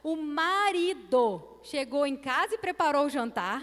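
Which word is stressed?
marido. The emphasis falls on the word marido. This husband normally never makes dinner. "Na segunda frase, o marido"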